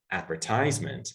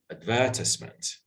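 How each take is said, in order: First: The word is said with an American pronunciation. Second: The word is said with a British pronunciation. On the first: "Americans usually say" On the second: "the British usually say"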